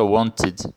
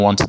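First: The ending is an extra 'id' syllable. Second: The ending has no extra vowel syllable. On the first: The speaker calls it right. "Então a pronúncia fica wanted" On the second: The speaker calls it wrong. "e não wanted"

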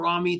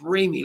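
First: The first syllable does not sound like 'ray'. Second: The first syllable sounds like 'ray'. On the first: The speaker calls it wrong. "if I call him Ramy, that's wrong" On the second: The speaker calls it right. "It's Ramy, like do re mi"

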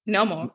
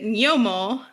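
First: The word begins with a plain n sound. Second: The word begins with an ny sound. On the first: "you pronounce it Nomo" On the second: "So I pronounce it Nyomo"

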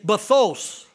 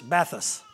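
First: The word is said with a foreign-sounding accent. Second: The word is said plainly, without an accent. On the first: "I said it with an accent" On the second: "That'll help you spell it"

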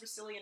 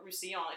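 First: The name is said with an anglicized pronunciation. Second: The name is said with a French pronunciation. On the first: "I've always heard it as Roussillon in production" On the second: "if you're going by the French pronunciation"

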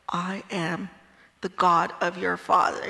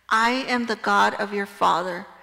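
First: It is said in a Darth Vader voice. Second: It is said in a normal reading voice.

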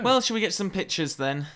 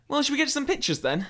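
First: It is said with little energy and enthusiasm. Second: It is said with more energy and enthusiasm. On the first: The speaker calls it wrong. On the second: The speaker calls it right.

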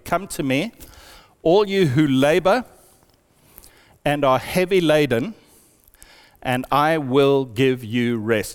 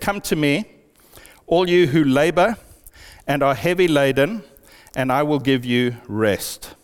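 First: It is read slowly. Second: It is read at a normal pace.

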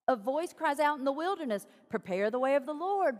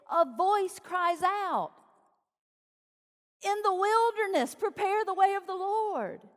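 First: The break comes after 'in the wilderness'. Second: The break comes before 'in the wilderness'.

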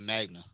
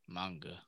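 First: The g sound comes before the n. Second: The n sound comes before the g. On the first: The speaker calls it wrong. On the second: The speaker calls it right.

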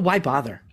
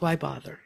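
First: The voice sounds tense and charged with energy. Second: The voice sounds flat and drained of energy. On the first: The speaker is in a stressed, activated state. "sympathetic could be, oh, why bother?" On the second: The speaker is in a shut-down, hopeless state. "Or dorsals, why bother?"

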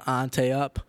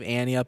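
First: Ante is said with a French-style ending. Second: Ante sounds like the name Annie. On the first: The speaker calls it wrong. "we thought it was French and pronounce it Ante" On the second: The speaker calls it right. "instead of Annie up"

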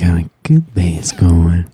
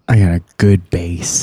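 First: It is said in a put-on sexy voice. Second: It is said in his plain speaking voice.

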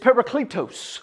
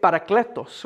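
First: The word is said without a Spanish accent. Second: The word is said with a Spanish accent.

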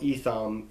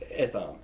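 First: The name has an English-style pronunciation. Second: The name has its original, non-English pronunciation. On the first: The speaker calls it wrong. "if it's become Englishized" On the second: The speaker calls it right. "but it's Etham"

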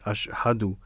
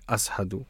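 First: The middle consonant is a sh sound. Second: The middle consonant is an s sound. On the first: "instead of saying ashhadu" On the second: "the sha sound would actually be pronounced as a sa sound"

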